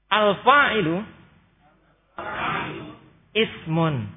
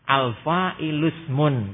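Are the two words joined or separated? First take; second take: separated; joined. First: The two words are said separately, ismun kept whole. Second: The two words run together, ismun's vowel dropped. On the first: "Kalau tadi kita dipotong biar mudah bacanya" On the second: "Boleh dibaca langsung ditembus"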